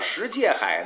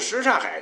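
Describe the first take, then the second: First: The middle syllable is pronounced 'jie'. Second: The middle syllable is pronounced 'cha'. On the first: This is the old local Beijing name. "在老北京话里边为什么又叫什界海" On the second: This is the standard Mandarin name. "普通话里边的说法"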